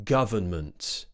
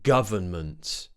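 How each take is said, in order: No difference in how they are said.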